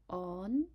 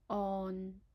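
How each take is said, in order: First: It is said in Cantonese tone two. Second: It is said in Cantonese tone six. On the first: "second tone on" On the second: "and the sixth tone on"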